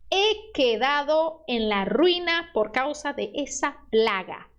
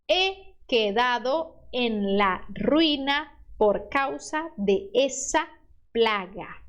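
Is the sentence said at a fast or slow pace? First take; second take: fast; slow. First: The sentence is said at normal speed. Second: The sentence is said slowly and carefully.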